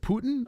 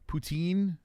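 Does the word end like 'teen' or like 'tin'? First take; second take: tin; teen. First: The word ends with a short 'tin' sound. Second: The word ends with a long 'teen' sound. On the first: "or was it Putin?" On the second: "I always called it poutine"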